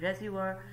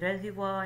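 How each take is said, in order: First: The word is said in an American accent. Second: The word is said in a British accent. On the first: "In American accent they provided" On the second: "Some in British uh, they pronounce they pronounce this word as"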